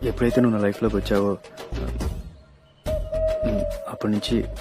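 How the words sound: The line is broken by a hesitant pause.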